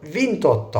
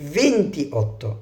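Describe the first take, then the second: First: The parts are joined, dropping the middle vowel. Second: Both parts are said separately, keeping the vowel. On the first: The speaker calls it right. "انا قلت فينتوتا على طول" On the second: The speaker calls it wrong. "ما قلتش فينتي اوتا"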